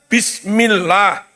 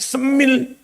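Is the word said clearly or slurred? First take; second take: clear; slurred. First: Every sound of the word is said clearly. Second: The word is slurred and shortened to semil. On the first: The speaker calls it right. "Harusnya bismillah" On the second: The speaker calls it wrong. "Kok semil iku piye? Bae mboten cetha"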